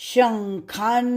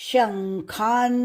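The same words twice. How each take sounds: No difference in how they are said.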